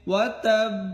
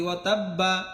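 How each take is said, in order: First: The final b is held with closed lips. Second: The final b is released with a vowel. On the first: The speaker calls it right. "আমারটা কেমন হচ্ছে ওয়া তাব এমন" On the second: The speaker calls it wrong. "বাড়া যেন স্পষ্ট না হয়ে যায় ওয়া তাব্বা এমন না"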